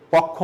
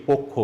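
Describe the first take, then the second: First: পক্ষ with a plain open অ, pɔkkho; পক্ষ read the wrong way, open অ. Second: পক্ষ with the first vowel rounded, pokkho; পক্ষ said right, o at the start; correct reading. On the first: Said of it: "উচ্চারণটা কিন্তু পক্ষ নয়". (পক্ষ ভুল উচ্চারণ, খোলা অ দিয়ে) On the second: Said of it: "উচ্চারণ হচ্ছে কি?". (পক্ষ সঠিক উচ্চারণ, পোক্ খো) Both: Shown as a demonstration.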